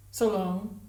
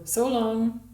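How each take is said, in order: First: Said in the usual way. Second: Curt farewell. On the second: A narrator's reading. She dismisses him curtly.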